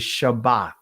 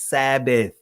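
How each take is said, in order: First: The word begins with an sh sound. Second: The word begins with a plain s sound. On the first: The speaker calls it right. "The ancient pronunciation is Shabbat" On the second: The speaker calls it wrong. "The Greek pronunciation of Shabbat is Sabbath"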